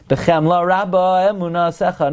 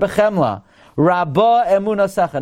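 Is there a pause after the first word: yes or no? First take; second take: no; yes. First: There is no pause after the first word. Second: There is a pause after the first word. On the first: The speaker calls it wrong. "Not like they taught you in kindergarten" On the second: The speaker calls it right. "pause after bechemla"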